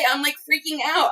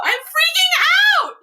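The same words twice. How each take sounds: First: Said in the usual way. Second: High, loud, drawn-out squeal; real ecstatic outburst; freaking out. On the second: Real, not acted. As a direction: shriek it slowly, overcome with excitement.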